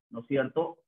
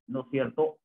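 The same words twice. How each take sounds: The two takes are said the same way.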